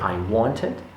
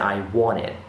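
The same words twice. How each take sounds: First: The t after the n is clearly sounded. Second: The t after the n is dropped. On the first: The speaker calls it wrong. "you don't say I wanted" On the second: The speaker calls it right. "you pronounce them n rather than n t"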